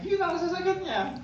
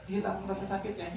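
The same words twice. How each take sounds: First: Much higher, imitating the relieved patient; high mock patient voice. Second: Said in the usual way. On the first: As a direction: squeak it out like the happy patient. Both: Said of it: "Baru dia bilang".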